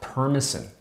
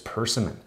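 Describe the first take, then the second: First: It sounds almost like the word permission. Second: The s comes before the m: per-sim-mon. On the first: The speaker calls it wrong. "like almost like permission, but that's backwards" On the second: The speaker calls it right. "It's persimmon"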